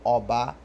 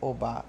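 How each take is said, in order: First: The word is said on level mid tones. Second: The word is said with different, non-mid tones. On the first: The word means king. "Obá, no caso, é rei" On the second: The word means an orisha. "diferente de Obá, que é orixá"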